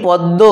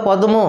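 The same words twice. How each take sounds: First: পদ্ম with m turned into a doubled d; everyday assimilated form. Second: পদ্ম with both d and m sounded; as spelt. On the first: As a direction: say পদ্ম as "pod-do". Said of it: "আর হয়ে গেছে দ যুক্ত দ". (ম বাদে জোড়া দ দিয়ে পদ্ম) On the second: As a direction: say পদ্ম as "pod-mo". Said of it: "আসল উচ্চারণটা কিন্তু লিখি প দয়ে ময়ে". (দ আর ম আলাদা করে পদ্ম) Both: Shown as a demonstration.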